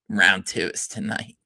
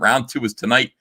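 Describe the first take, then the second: First: It is said in a put-on imitated voice. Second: It is said in the speaker's ordinary voice.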